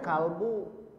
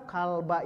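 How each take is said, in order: First: The word ends with a 'u' vowel. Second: The word ends with an 'a' vowel. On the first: The dog is the one doing the hitting. The speaker calls it wrong. "Tidak boleh kalbu" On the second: The dog is the one being hit. The speaker calls it right. "kalba itu maf'ul bih"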